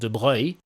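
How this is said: The name is said with French pronunciation. "It's a French name, and it's actually pronounced"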